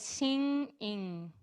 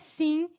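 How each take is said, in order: First: The ending has a back nasal ng sound. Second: The ending has a plain tongue-tip n sound. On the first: The speaker calls it right. "o N nasal é singing" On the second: The speaker calls it wrong. "não é sim, in. Esse é o N não nasal"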